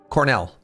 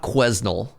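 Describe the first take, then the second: First: The s sound in the name is silent. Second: The s sound in the name is pronounced. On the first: The speaker calls it right. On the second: The speaker calls it wrong.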